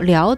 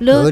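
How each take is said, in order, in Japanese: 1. liao と発音する。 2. 違うように発音する。liao じゃない。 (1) "了で発音します" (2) "了じゃなくて"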